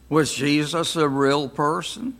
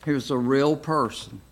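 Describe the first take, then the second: First: "Was" stressed with a rising question tune. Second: Said in the usual way. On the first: Shown as a demonstration. Teacher asks the class a doubting question, rising tune. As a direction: lift "Was" and end the question on a rise.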